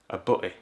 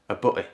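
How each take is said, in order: First: The t sound in the middle is dropped. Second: The same.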